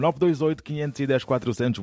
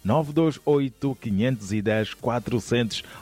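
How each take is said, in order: First: The number is read at normal speed. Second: The number is read more slowly.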